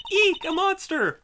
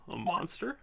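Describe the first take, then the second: First: "Eek, a monster!" much higher and louder, a hammed-up shriek; mock shriek. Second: Said in the usual way. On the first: Shown as a demonstration. Redoing the game girl's line as a hammed-up shriek. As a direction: squeal "Eek" like a cartoon scare.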